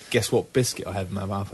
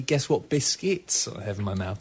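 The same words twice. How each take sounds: First: Said in the usual way. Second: Slow, plural "biscuits" stressed clearly. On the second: Shown as a demonstration. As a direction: lean on the word "biscuits", slowly. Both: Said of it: "And actually, it's gonna be".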